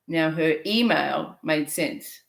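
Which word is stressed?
email. The stress falls on the word email.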